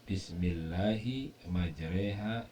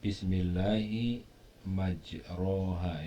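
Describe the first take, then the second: First: The vowel after the r sounds like e. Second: The vowel after the r sounds like a. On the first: This is a special reading of the word. "diimalahkan menjadi majreha" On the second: This is the usual way of reading the word. "itu tulisannya majroha kalau dibaca secara umum"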